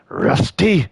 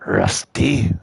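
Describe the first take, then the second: First: Put-on old man voice, cut short; trying to find the old man voice; grandpa voice. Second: Said in the usual way. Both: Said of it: "the grandpa voice is breaking through".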